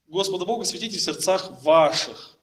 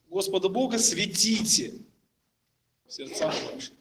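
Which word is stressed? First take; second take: ваших; светите. First: The stress falls on the word ваших. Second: The stress falls on the word светите. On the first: "сделают ударение на слово ваших" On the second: "сделают ударение на слово светите"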